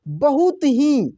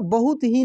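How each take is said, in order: First: The word 'hi' is said with extra force. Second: The word 'hi' is said plainly, without force. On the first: The speaker calls it right. "इसमें हम लोग जोर लगा के बोल रहे हैं" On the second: The speaker calls it wrong. "Simple तरीके से नहीं इसको बोलेंगे"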